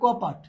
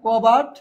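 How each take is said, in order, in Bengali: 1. মধ্যের ব্যঞ্জনটি একটি অঘোষ p। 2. মধ্যের ব্যঞ্জনটি একটি ঘোষবান b।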